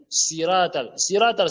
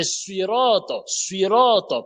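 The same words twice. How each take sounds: First: SIRAT with a light s and thin i; wrong thin S. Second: SUIROT with a heavy so sound and rounded o, drawn out; correct emphatic S. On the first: Retold or imitated. Teacher quoting what people say, light thin SIRAT. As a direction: say SIRAT with a plain French s, open a. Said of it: "les gens disent sirat al-ladhina". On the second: Shown as a demonstration. Teacher correcting sirata, slow heavy SUIROT. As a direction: say SUIROT slowly, darkening s and both vowels. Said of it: "pas sirata".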